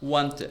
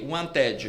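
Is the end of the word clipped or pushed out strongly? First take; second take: clipped; strongly. First: The final syllable is swallowed and weak. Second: The final syllable is pushed out with force. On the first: The speaker calls it right. "Você meio que engole ali o finalzinho" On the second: The speaker calls it wrong. "o brasileiro faria o quê? ... Ele joga a força pro final"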